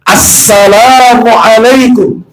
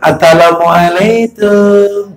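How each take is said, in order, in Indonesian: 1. Setiap bunyi diucapkan dengan jelas dan utuh. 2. Bunyinya kabur, seperti cadel anak kecil.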